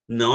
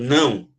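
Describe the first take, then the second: First: The word is said at normal, plain volume. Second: The word is said loudly, as an exclamation. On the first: It is a plain statement. "aí só teria ponto" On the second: It is an emphatic exclamation. "ele fala alto"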